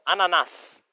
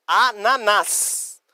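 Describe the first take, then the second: First: "Ananás" in one go, stressed on final "nás"; stress on last A. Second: "Ananás" very slow, split a-na-NÁS; syllable by syllable. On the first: Teacher demonstrates the accent, "Ananás" stressed on last A. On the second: Teacher shows students the accent, "Ananás" slowly split. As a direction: draw out "Ananás", stressing the last A. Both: Shown as a demonstration. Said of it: "Acento no último A pra dar entonação".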